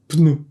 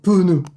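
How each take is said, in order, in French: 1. Le p et le n se suivent sans pause ; une syllabe. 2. Une voyelle en trop sépare le p et le n ; deux syllabes. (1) "si tu veux le prononcer correctement" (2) "plus tu descends dans le sud de la France, et plus ce mot va devenir pneu"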